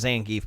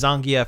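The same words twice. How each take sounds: First: The name is said in an English-sounding way. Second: The name is said in a Russian-sounding way. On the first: This is the popular pronunciation. "instead of Zangief" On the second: This is the official pronunciation. "the official Capcom pr- pronunciation is Zangief"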